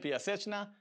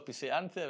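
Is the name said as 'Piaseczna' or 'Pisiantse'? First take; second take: Piaseczna; Pisiantse. First: The name is pronounced 'Piaseczna'. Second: The name is pronounced 'Pisiantse'. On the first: The speaker calls it right. "פיאסצ'נה, כך מבטאים" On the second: The speaker calls it wrong. "ולא פיסיאנצה"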